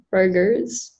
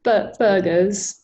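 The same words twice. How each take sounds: First: "burgers" with the R pronounced, American-style; R sounded. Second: "burgers" British-style, like buh-guhz; dropped R. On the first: Real, not acted. Student answers the coach about a favorite meal, "burgers" with R sounded. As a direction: keep the R in "burgers". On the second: Shown as a demonstration. Student repeats after the coach, "burgers" with the R's gone. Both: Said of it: "So the R's would be gone".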